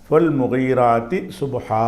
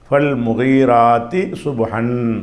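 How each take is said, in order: First: The last word ends on a long vowel. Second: The last word ends with an 'n' sound. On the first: The reader stops and takes a breath here. "மூச்சு விட்டு நிப்பாட்டுறதா இருந்தால்" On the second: The reading continues into the next words. "Continue பண்ணால் அப்படி படிக்கணும்"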